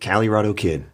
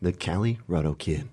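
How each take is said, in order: First: It is said in a plain voice. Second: It is said in a sultry voice.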